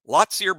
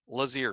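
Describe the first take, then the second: First: The name is said with a T sound. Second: The name is said without a T sound. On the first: The speaker calls it wrong. "We've been butchering this" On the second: The speaker calls it right. "No T. The T is silent"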